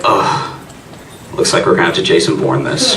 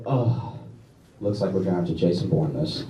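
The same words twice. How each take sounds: First: Low tough-guy voice; mock action hero in his head; gruff action hero. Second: Low, quiet tough-guy voice; a mock action hero sizing him up; gruff action hero. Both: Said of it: "I was like".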